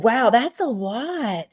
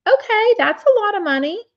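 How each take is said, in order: First: Said in the usual way. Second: High, loud amazed reaction; surprised. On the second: Real, not acted. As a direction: gasp at the big sum. Reacting to a big number.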